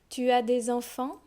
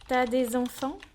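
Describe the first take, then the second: First: The word tu is said in full. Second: The u of tu is dropped. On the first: This is the careful reading form. "I'm going to read the sentences" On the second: This is the casual spoken form. "I'll drop the U"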